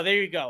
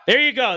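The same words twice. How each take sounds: First: Said in the usual way. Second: Pleased. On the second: Real, not acted.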